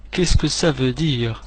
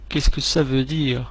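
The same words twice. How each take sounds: The two takes are said the same way.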